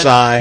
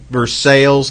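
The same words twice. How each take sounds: First: It is said with the non-local, other pronunciation. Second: It is said with the local Indiana pronunciation. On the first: This is how people elsewhere say it. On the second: This is how locals in Indiana say it. "in Indiana we pronounce it ... just like we Versailles"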